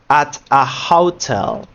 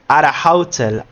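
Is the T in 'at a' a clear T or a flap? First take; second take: clear T; flap. First: The T in 'at' is a clear, held T. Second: The T in 'at' is a quick flap. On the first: "If we don't use the flap R, we will say" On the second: "now that we are using the flap R, we say"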